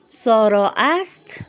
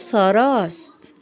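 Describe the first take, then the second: First: The word ast is said as a separate syllable. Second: The vowel drops, merging into one word sarast.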